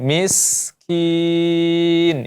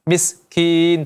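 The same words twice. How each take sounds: First: The s sound is long with full airflow. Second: The s sound is short and clipped. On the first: The speaker calls it right. "sinnya benar-benar di, disempurnakan" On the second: The speaker calls it wrong. "tidak dibaca miskin"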